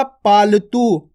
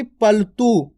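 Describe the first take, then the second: First: पालतू slow, its पा held long; teacher's model of पालतू. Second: पलतू slow, with a short प and no long aa; wrong take, पलतू. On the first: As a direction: stretch the पा in पालतू. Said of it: "मैंने क्या बोला?". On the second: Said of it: "ना कि पलतू". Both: Shown as a demonstration.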